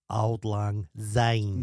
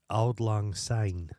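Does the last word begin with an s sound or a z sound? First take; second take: z; s. First: The last word begins with a z sound. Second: The last word begins with an s sound. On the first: The speaker calls it wrong. "but she sings it Auld Lang Zine" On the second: The speaker calls it right. "she sings Auld Lang Syne"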